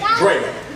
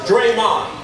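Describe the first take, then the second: First: The name begins with a different first sound. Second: The name begins with a D sound. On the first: This is how the speaker says his own name. "I pronounce my name" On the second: This is how another man with a similar name says it. "He uses a D and he pronounces it"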